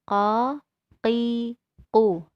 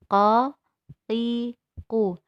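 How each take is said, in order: No difference in how they are said.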